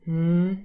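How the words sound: The hum sounds bored.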